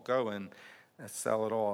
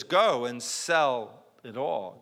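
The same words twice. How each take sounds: First: Softer, lower echo of the command; quiet repeat. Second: Slow and deliberate, stressing go; slow, weighty command. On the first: Pastor echoing the command to himself, softer. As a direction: let it sink in, softly. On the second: Jesus answering the rich man, slow and grave. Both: Real, not acted.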